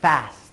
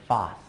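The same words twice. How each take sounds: First: It is said in an American accent. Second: It is said in a British accent. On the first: "I would say fast" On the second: "Someone in England would say fast"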